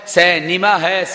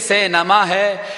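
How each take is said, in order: First: The word is voiced with a short i vowel. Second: The word is voiced with a short a vowel. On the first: "پھر زیر دیکھیں گے" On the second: "پہلے زبر دیکھیں گے"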